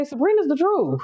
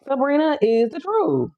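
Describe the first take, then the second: First: Said in the usual way. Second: "Sabrina is the truth" slowed right down, higher pitched; emphatic repeat. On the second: Real, not acted. Slow emphatic repeat of endorsement.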